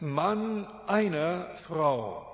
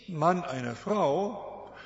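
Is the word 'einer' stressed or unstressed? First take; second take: stressed; unstressed. First: The word 'einer' carries strong stress. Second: The word 'einer' is said without stress. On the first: The man has only one wife. The speaker calls it right. "das einer ist betont" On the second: The man simply has a wife. The speaker calls it wrong. "Nicht Mann einer Frau"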